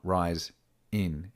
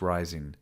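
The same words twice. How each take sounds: First: The words are said separately, without linking. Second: The words are linked together smoothly. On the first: The speaker calls it wrong. "not rise in" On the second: The speaker calls it right. "It's rise in"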